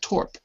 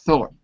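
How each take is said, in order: First: The word starts with a plain t sound. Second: The word starts with a th sound. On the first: The speaker calls it wrong. "it's not Torp" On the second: The speaker calls it right. "It's Thorpe"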